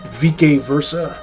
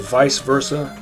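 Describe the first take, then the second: First: It uses the classical Latin pronunciation. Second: It uses the everyday English pronunciation. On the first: "I think is the classical Latin pronunciation" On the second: "Normal people would say vice versa"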